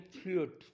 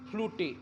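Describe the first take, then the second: First: It is one syllable with a long 'oo' vowel. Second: It is two syllables, ending in an 'eh' vowel. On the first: The speaker calls it right. "त्याचा उच्चार यू करतात" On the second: The speaker calls it wrong. "असं म्हणतील"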